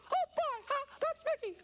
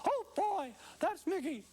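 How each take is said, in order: First: The Mickey voice is pitched too high. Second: The Mickey voice is pitched too low.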